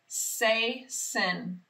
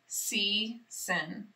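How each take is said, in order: First: The first vowel sounds like 'ay'. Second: The first vowel sounds like 'ee'. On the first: The speaker calls it wrong. "It doesn't sound like a word that I know" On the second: The speaker calls it right. "this vowel team E A can work together to say E"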